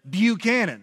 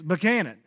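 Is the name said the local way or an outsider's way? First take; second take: outsider; local. First: The name is said the way outsiders say it. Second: The name is said the way locals say it. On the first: The speaker is not from around here. The speaker calls it wrong. "Same with Buchanan" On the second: The speaker is from around here. The speaker calls it right. "it's Buchanan"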